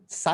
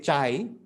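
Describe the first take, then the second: First: The word starts with an s sound. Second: The word starts with a ch sound. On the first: The speaker calls it wrong. "once you realize that sai is wrong" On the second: The speaker calls it right. "you have to say chai"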